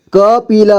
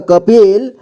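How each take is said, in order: First: कपिल as क-पि-ल; syllable by syllable. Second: Said in the usual way. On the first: Shown as a demonstration. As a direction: sound out कपिल with the final ल voiced as "la". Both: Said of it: "एक ही बार में पढ़ेंगे".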